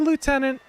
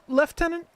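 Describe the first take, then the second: First: It is said the French way. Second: It is said the English way. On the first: "the French say lieutenant" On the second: "the English say lieutenant"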